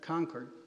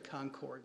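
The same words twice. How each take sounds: First: It is said with the local Boston pronunciation. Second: It is said with a non-Boston pronunciation. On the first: The speaker calls it right. "Notice that's a Boston pronunciation" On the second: The speaker calls it wrong. "I used to say Concord"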